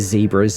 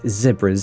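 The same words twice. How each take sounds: First: The word has an American pronunciation. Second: The word has a British pronunciation. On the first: "I've been a little bit Americanized, so I kind of say zebras sometimes" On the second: "Do you say z- zebras, isn't it?"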